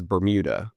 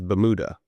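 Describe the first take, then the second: First: Said in the usual way. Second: "Bermuda" as "buh-MOO-duh", no r, no y glide; imitated Alabama "Bermuda", reduced to buh-MOO-duh; grandfather's Alabama pronunciation. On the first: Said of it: "has a different pronunciation". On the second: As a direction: say "Bermuda" like "ba-mooda". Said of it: "he says Bermuda".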